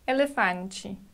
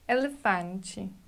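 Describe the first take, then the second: First: The final syllable sounds like a clear 'chee'. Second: The final syllable sounds like a clear 'chee'.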